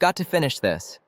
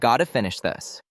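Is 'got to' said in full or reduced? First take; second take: full; reduced. First: Both words of 'got to' are said in full. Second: 'Got to' is blended into one word, 'gotta'. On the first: The speaker is being clear or formal. "instead of saying" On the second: The speaker is being casual. "you'll hear"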